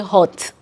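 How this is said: The vowel sounds like the one in 'hot'. This is how people in Nigeria say it. "My brothers and sisters from the other side will say"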